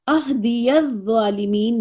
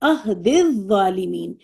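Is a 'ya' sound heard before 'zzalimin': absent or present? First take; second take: present; absent. First: A 'ya' sound is pronounced before 'zzalimin'. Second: The 'ya' sound is dropped before 'zzalimin'. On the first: The speaker calls it wrong. "नहीं पढ़ा गया" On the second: The speaker calls it right. "यहां पे कैसे पढ़ा गया?"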